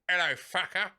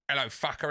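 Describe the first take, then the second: First: It is said in an imitated cat voice. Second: It is said in his normal voice.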